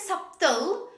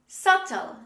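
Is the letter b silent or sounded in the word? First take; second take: sounded; silent. First: The b sound is pronounced in the middle. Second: The b sound is left out completely. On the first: The speaker calls it wrong. "Don't say subtle" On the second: The speaker calls it right. "B is not pronounced when we say this word"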